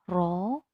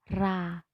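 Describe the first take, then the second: First: The vowel sounds like a full o. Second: The vowel sounds like a full a. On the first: "tidak ro" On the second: "tidak ra"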